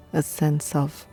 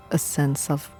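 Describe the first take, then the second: No difference in how they are said.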